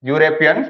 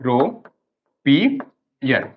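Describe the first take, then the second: First: Said in the usual way. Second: यूरोपियन stretched very slowly, syllable by syllable; drawn-out model word. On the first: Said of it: "इसको पढ़ते हैं यूरोपियन". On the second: Shown as a demonstration. Teacher models यूरोपियन slowly for students to repeat. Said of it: "बोलो".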